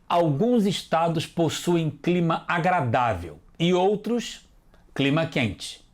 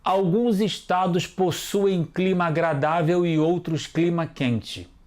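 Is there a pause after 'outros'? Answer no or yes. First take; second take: yes; no. First: There is a pause after 'outros'. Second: It is read straight through without a pause. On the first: The speaker calls it right. "Faltou eu respeitar a vírgula" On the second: The speaker calls it wrong. "faltou a vírgula"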